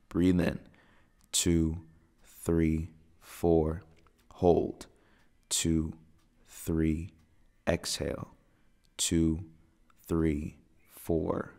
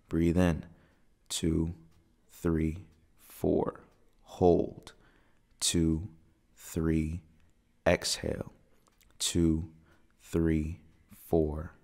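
Both takes have the same delivery.

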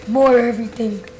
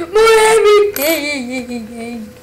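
First: Said in the usual way. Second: Drawn-out mock evil. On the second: Repeats boast in drawn voice.

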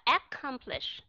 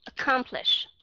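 First: Accomplish with a full ek-kom start; wrong pronunciation. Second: Accomplish with a schwa first syllable; Accomplish, one k sound, weak first vowel; correct pronunciation. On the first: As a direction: mispronounce accomplish with a doubled k. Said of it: "Chứ không phải là". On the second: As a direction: say Accomplish as uh-KOM-plish. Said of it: "Chứ không phải là accomplish". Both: Shown as a demonstration.

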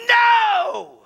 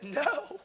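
First: Very high, loud scream of refusal. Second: High, soft, crying protest; tearful refusal. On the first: Grieving man in the prayer room, freaked-out scream. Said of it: "and I scream". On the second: Broken man refusing God in prayer, tearful soft protest. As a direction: plead it quietly, as if crying. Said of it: "And I cried. And I said". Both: Retold or imitated.

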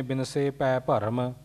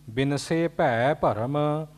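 First: ਭੈ said as ਪੈ, with no aspiration; wrong way, quiet. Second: ਭੈ with a breathy ਭ and the ਦੁਲਾਵਾਂ vowel, slowly; slow, careful ਭੈ with a full ਭ; correct, slow. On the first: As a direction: say ਭੈ like pai, the common mistake. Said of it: "ਏਦਾਂ ਨਹੀਂ". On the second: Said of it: "ਭੱਬੇ ਨੂੰ ਦੁਲਾਵਾਂ ਭੈ". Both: Shown as a demonstration.

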